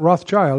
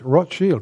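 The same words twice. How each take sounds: First: The second part sounds like 'child'. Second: The second part sounds like 'shield'. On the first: The speaker calls it wrong. "Not Rothschild" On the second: The speaker calls it right. "it's Rothschild, red shield"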